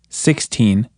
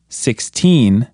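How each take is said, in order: First: "sixteen" with the first syllable stressed; counting-style "sixteen", weight on "six". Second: Put-on "sixteen" with "teen" drawn out and stressed. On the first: Teacher counting teen numbers for learners, first-syllable stress on "sixteen". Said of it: "more emphasis on the first syllable". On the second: Teacher contrasting it with sixty, strong stress on "teen" in "sixteen". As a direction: lean hard on "teen" in "sixteen". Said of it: "try putting more emphasis on teen". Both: Shown as a demonstration.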